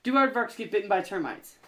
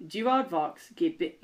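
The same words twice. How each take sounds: First: Light attempt at an Australian accent. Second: Put-on slow try at an Australian accent. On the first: Redeeming himself to the co-host with a light Australian accent. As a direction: ask it in a mild Australian accent. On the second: Redeeming himself to the co-host with a slow Australian accent. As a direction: start reading in a light Australian accent. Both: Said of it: "let me read some more in an Australian accent".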